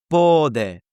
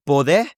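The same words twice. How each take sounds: First: Pode with the O stressed and drawn out; slow PO-de, long O, falling; stress on the first syllable. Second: Pode with the last E stressed, rising; wrong take: poDE, lifted at the end; stress on the final syllable. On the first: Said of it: "the stress is on the O". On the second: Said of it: "It's not pode". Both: Shown as a demonstration.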